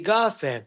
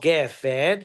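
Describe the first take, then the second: First: The first vowel is an a sound. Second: The first vowel is an e sound. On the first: This is the form used at the end of a verse. "it should be" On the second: This is the ordinary form of the word. "it's two segos"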